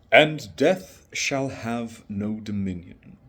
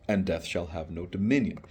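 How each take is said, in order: First: Slow, solemn Dylan Thomas-style reading; poem recital. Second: Said in the usual way. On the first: Shown as a demonstration. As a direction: intone the opening line with weight.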